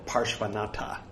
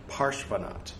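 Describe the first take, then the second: First: The name ends with a final 'a' vowel. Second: The name ends without a final vowel. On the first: The speaker calls it wrong. "if you want to sound like a rube" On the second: The speaker calls it right. "They don't pronounce the A's"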